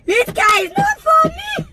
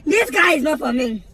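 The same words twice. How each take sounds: First: Very high, wailing protest that climbs at the end; high-pitched outcry. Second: Said in the usual way. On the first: Acted. Car owner despairing over this guy, shrieking high. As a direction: squeal it in exasperation. Repeated as outraged cry.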